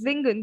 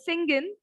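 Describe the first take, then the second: First: The word begins with a buzzing Z sound. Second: The word begins with a hissing S sound. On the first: The speaker calls it right. "S has the sound of Z" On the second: The speaker calls it wrong. "we don't say it as singen"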